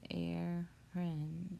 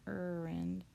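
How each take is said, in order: First: "errand" starting like air, drawn out slowly; correct pronunciation. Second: "errand" starting with an er sound; spelling pronunciation. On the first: Teacher correcting the misreading, slow "errand" as air-rund. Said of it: "which you might see there". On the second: Teacher showing how it might be misread, "errand" as ur-rand. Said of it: "It's not errand". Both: Shown as a demonstration.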